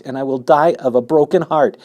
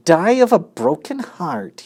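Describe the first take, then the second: First: Loud, high heartbroken plea; desperate plea. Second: High mocking echo of the plea; mimicked. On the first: Acted. Pig pleads that he will die of grief. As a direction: beg him sincerely. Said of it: "said Wilbur in desperation". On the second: Rat mocks the pig's plea, high scornful mimic. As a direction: throw his words back scornfully. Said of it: "he mimicked".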